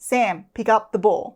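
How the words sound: The voice is calm and confident. It shows the instruction is meant. The speaker calls it right. "a calm and confident tone"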